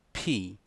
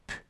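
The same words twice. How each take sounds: First: "P" said as the English letter name, pee; letter-name pronunciation. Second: "P" as a bare puff of air, no vowel; letter sound. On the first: Teacher naming the letter in English, letter-name pronunciation. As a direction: say "P" with a long ee vowel. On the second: Teacher showing students the sound of the letter, letter sound. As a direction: pop the lips for "P" without voicing. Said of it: "O som da letra P". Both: Shown as a demonstration.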